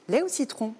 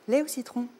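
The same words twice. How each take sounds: First: It sounds brisk, energetic and bossy. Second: It sounds friendly, relaxed and self-assured.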